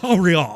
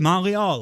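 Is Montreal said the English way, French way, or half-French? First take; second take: half-French; French. First: It is said halfway between English and French. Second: It is said the French way, without the T.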